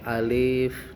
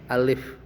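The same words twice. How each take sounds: First: The vowel is drawn out over several beats. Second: The vowel is held for just one beat. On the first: The speaker calls it wrong. "tidak boleh dipanjangkan" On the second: The speaker calls it right. "bacanya satu ketukan"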